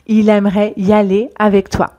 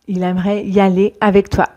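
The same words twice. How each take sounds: Both takes have the same delivery.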